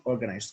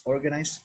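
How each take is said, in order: First: "organized" falling to a firm close; final drop on "organized"; falling tune. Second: "Organized" rising as an opener; rising tune. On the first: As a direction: bring "organized" down to finish. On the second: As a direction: lift "Organized" to start the contrast. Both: Shown as a demonstration. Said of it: "Look at the word organized".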